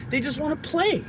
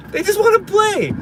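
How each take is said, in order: First: Said in the usual way. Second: High-pitched, exasperated repeat; exasperated plea. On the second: Real, not acted. Parent lamenting turning the kids down, exasperated. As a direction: plead it high, voice dropping at the end.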